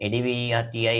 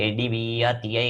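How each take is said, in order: Both takes have the same delivery.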